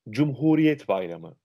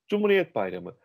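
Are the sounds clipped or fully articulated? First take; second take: fully articulated; clipped. First: Every sound is clearly and fully pronounced. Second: Some sounds are swallowed and slurred together. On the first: The speaker calls it right. "Hayır" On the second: The speaker calls it wrong. "o harfleri çıkarmıyoruz ve geçiştiriyoruz"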